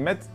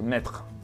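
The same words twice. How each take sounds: First: The ending is cut to a bare t sound. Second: The full tre ending is pronounced. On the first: "si vous entendez mettre" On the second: "ça devrait être mettre"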